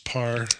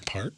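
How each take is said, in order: First: The word ends without a t sound. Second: The word ends with a clear t sound. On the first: "Do you know why I said it that way? Nicolas Cage in Gone in sixty seconds said that" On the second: "don't you mean part?"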